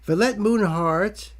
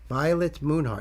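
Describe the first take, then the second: First: The first syllable does not rhyme with 'by'. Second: The first syllable rhymes with 'by'. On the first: The speaker calls it wrong. "It just looks like it's Valette?" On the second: The speaker calls it right. "Vi rhymes with by"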